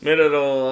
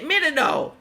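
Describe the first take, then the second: First: It is read in his normal voice. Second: It is read in a put-on character voice.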